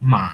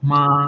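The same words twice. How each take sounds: First: The pitch drops and then rises again. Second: The pitch stays flat and level. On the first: "third টোনটা আছে সেটা হবে ফলিং এবং রাইস" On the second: "first টোনটা আছে সেটা একদম সমান্তরালে যায়"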